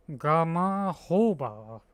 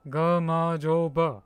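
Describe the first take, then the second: First: "Gamahoba" drawn out, with an H starting "hoba"; H pronunciation. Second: "Gamma joba" drawn out, with a J starting "joba"; J pronunciation. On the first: Streamer checking with chat, slow "Gamahoba" with an H. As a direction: say "Gamahoba" slowly, HO as the third syllable. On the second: Streamer practising the corrected word, slow "Gamma joba" with a J. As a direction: say "Gamma joba" slowly, JO as in Joe. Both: Shown as a demonstration. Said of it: "So it's not H".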